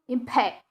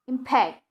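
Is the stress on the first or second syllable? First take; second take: second; second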